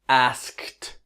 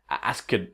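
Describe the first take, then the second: First: The ending is a plain T sound. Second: The ending is an extra syllable with D. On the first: The speaker calls it right. "Step two is add the sound of a T" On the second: The speaker calls it wrong. "what happens is that they say"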